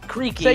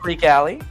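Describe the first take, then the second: First: The name is said with two syllables. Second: The name is said with three syllables. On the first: The speaker calls it wrong. "a lot of people pronounce mine wrong and say" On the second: The speaker calls it right. "but it's"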